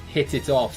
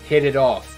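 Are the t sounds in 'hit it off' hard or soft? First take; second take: hard; soft. First: The t sounds are crisp, fully released t sounds. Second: The t sounds are soft, like a quick d. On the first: "it becomes very British sounding right away" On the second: "this soft D T sound"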